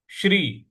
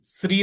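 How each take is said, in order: First: श्री with big श and half र; crisp श्री with clear sh and r; correct Shri. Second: श्री said loosely with s, not sh-r; the incorrect श्री; wrong Shri. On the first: Teacher models the correct श्री. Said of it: "श्री ऐसे बोलना है". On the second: Teacher shows how not to say श्री. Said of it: "श्री नहीं बोलना है". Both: Shown as a demonstration.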